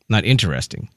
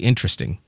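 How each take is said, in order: First: The word is said with four syllables, as 'in-ter-est-ing'. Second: The word is said with three syllables, as 'in-tre-sting'. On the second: "a lot of people probably say interesting"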